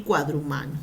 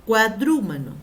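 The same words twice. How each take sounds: First: "cuadrumano" stressed on MA, cua-dru-MA-no; penultimate stress. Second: "Cuadrúmano" punched on DRU, cua-DRÚ-ma-no; antepenultimate stress. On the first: Teacher giving second accepted form, "cuadrumano" as cua-dru-MA-no. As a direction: lower "cuadrumano", weight on MA. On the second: Teacher giving first accepted form, "Cuadrúmano" as cua-DRÚ-ma-no. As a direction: hit DRÚ loudly in "Cuadrúmano". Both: Shown as a demonstration. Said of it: "valen las dos".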